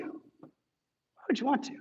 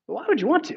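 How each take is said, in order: First: Drawn out and much softer; soft slow repeat. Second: Said in the usual way. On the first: Real, not acted. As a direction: let the question linger quietly. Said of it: "repeated softly and slowly". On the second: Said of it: "rhetorical question, then repeated".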